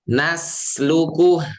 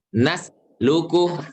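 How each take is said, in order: First: The s sound flows on without a break. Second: The s sound stops with a break. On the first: The speaker calls it right. "Alirkan sin" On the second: The speaker calls it wrong. "jangan diputus"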